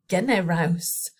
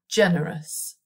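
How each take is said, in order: First: The final syllable is said full, as spelled. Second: The final syllable is said short and weak. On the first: The speaker calls it wrong. "it looks like generaus" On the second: The speaker calls it right. "we pronounce it generous"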